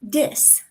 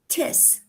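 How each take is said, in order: First: The word begins with a D sound. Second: The word begins with a T sound. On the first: "the T H sound is often replaced with D's or T's" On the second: "the T H sound is often replaced with D's or T's"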